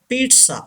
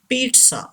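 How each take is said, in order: No difference in how they are said.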